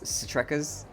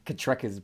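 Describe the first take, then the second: First: The name begins with an S sound. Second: The name begins with a K sound.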